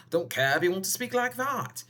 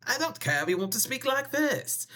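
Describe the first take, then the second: First: Moderately raised put-on voice; playful funny voice, pitched somewhat up; second silly voice. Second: High-pitched put-on voice; playful high funny voice; silly voice. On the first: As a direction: demonstrate another odd voice, a little high. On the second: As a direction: demonstrate a weird voice, pitched way up. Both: Shown as a demonstration. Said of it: "weird yesterday with my voices".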